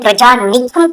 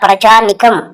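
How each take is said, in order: First: The word is said with heavy added emphasis. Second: The word is said plainly, without added emphasis. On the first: The speaker calls it wrong. "అంతేగాని ప్రజానికం కాదురా" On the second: The speaker calls it right. "ఒరే ఇప్పుడే చెప్పాను రా"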